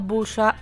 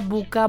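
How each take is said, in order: First: The middle consonant is a hissing s sound. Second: The middle consonant is a hard k sound.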